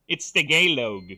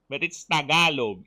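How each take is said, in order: First: "Tagalog" said "tuh-GAY-log", stress on GAY, loud; Western mispronunciation. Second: "Tagalog" said "ta-GA-log" with a hard ga, loud; native pronunciation. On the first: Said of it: "if it's read by a filthy Westerner". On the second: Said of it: "It is said with a hard ga". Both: Shown as a demonstration.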